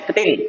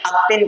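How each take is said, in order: First: The k and t form a tight cluster. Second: A vowel is added before the k sound. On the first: The speaker calls it right. "न क पूरा ढंग से कह पा रहे हैं न त पूरा ढंग से कह पा रहे हैं" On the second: The speaker calls it wrong. "अक्तिन कहते हैं"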